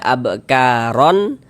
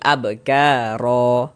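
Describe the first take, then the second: First: The word ends with an added n sound. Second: The word ends on a lengthened final vowel. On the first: The speaker calls it wrong. "Jangan dibaca abkaron" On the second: The speaker calls it right. "tapi abkaro, dipanjangkan dua harokat"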